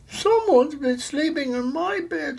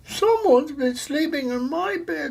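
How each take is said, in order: First: The voice sounds wee and little. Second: The voice sounds wee and little.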